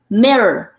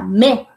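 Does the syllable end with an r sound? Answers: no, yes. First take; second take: yes; no. First: The syllable ends with an r sound. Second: The syllable ends without an r sound. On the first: The speaker calls it right. "Con la primera R" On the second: The speaker calls it wrong. "no va a ser igual que en español, que solo encierra dos letras, que sería me. No"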